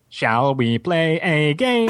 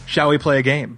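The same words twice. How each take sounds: First: It is said in a robotic computer voice. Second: It is said in a normal speaking voice.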